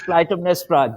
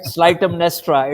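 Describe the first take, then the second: First: The name begins with a K sound. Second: The name begins with an S sound. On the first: The speaker calls it right. "it is Clytemnestra" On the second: The speaker calls it wrong. "you cannot pronounce it slight"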